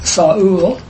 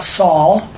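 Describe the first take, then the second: First: The name is said with two syllables. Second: The name is said with one syllable. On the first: The speaker calls it right. "that's two syllables" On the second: The speaker calls it wrong. "It's not Saul"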